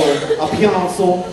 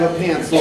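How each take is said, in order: First: "pencil" stretched slowly into "pee-AHN-sul"; odd pronunciation. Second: Said in the usual way. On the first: Shown as a demonstration. Presenter playing with a word, "pencil" said as a drawn-out "pee-AHN-sul". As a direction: draw out "pencil" with an extra ah vowel. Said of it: "I don't know why I'm saying that".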